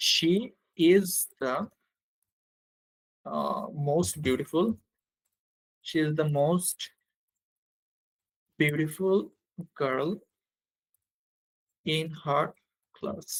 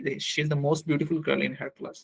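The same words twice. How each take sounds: First: Long gaps between small word groups; slow dictation. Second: Said in the usual way. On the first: Real, not acted. Teacher writing the superlative example, slow word-by-word dictation. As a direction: stretch it out in time with writing.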